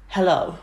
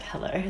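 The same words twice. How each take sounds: First: Rough imitation of a Russian accent; bad Russian accent. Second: Said in the usual way. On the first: Woman calling about a hens party, bad Russian accent. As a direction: say hello in a badly faked Russian accent. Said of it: "gonna be the worst accent ever". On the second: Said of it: "And I was like".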